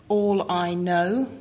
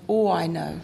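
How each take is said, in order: First: ALL drawn out slowly with a clear L; clear final L. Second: ALL run into I KNOW, L swallowed; dropped final L. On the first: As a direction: say ALL slowly, finishing on a full L. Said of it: "put the word into a sentence". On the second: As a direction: say ALL quicker, letting the L vanish. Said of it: "it becomes". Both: Shown as a demonstration.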